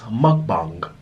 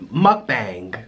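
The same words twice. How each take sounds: First: Mukbang with a long, open Korean a, "muk-bahng"; mukbang with the a stretched and open as in Korean; Korean pronunciation. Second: Mukbang with a flat American "bang" vowel, like cat; mukbang anglicized, "muck-bang" with a short a; American pronunciation. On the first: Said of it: "in Korea, A is long, so it's pronounced". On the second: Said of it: "Now, Americans, they say mukbang". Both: Shown as a demonstration.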